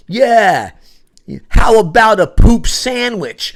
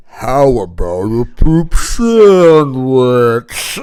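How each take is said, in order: First: Slow, loud, higher yell; yelled ad-lib. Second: Slow, louder ad-lib line; slow mock yell. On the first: Retold or imitated. Shouting an ad-lib at the scene, slow loud yell. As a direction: yell it out across the stage. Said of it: "I yell out". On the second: Ad-libbing into sudden silence, slow loud line. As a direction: drag out poop sandwich deliberately. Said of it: "and I was like".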